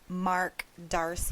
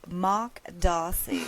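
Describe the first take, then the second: First: It is said in an American accent. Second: It is said in a British accent. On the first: "For us Americans" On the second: "that's my best British accent for his name"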